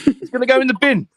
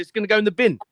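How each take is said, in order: First: Louder and higher, nearly a yell; shouted repeat. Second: Said in the usual way. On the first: Retold or imitated. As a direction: blurt it out the second time, raising the voice. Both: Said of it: "repeats the line louder".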